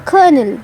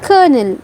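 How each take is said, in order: First: It is said as kernel with an R sound. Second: It is said as kernel with an R sound.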